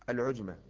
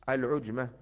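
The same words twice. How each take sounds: The two takes are said the same way.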